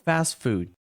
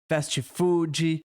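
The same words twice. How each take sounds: First: It is said with an English accent. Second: It is said with a Brazilian Portuguese accent. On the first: The speaker calls it right. "procura a pronúncia em inglês" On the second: The speaker calls it wrong. "Com o nosso sotaque"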